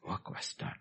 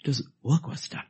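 First: Hushed, settled conclusion; whispered. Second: Said in the usual way. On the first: Shown as a demonstration. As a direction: work breathed voiceless, very soft. Repeated line, whispered.

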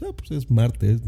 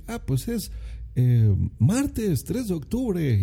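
First: Said in the usual way. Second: Slow, higher, over-precise reply like a stilted announcer; overly formal answer. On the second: Shown as a demonstration. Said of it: "No, o sea, dices".

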